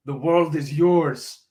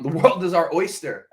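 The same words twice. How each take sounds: First: Slow, drawn-out mock Cuban gangster accent; bad Scarface accent. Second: Said in the usual way. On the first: Podcaster quoting Scarface to his listeners, slow hammed-up Cuban accent. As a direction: ham up a Cuban Scarface accent, stretching every word. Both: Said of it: "That was a really bad Scarface accent".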